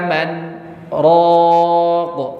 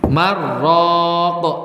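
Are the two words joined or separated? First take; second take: separated; joined. First: The words are split with a short stop. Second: The n merges into r with no break. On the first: They are two words with two meanings. The speaker calls it right. "maka itu harus dipisah" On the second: It sounds like a single word. The speaker calls it wrong. "Ini kalau disambung jadi bagaimana bunyinya?"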